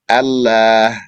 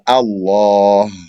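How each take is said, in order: First: The L sound is light and thin. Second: The L sound is heavy and full. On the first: The speaker calls it wrong. "you don't say Allah" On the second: The speaker calls it right. "the lam is heavy. So ... you say Allah"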